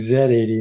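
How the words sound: The letter Z is pronounced 'zed'. It follows British usage. "I've gotten in the habit of saying"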